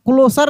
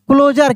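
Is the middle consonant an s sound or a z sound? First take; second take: s sound; z sound. First: The middle consonant is a hissing s sound. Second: The middle consonant is a buzzing z sound. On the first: The speaker calls it wrong. "क्लोजर नहीं" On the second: The speaker calls it right. "इसको जर पढ़ना"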